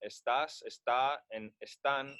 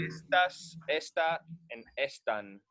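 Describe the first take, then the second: First: Second syllable stressed in "estás, está, and están"; stress on final syllable. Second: First syllable stressed in "estas, esta, and están". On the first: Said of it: "you indicate it with an accent". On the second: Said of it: "they would be pronounced". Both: Shown as a demonstration.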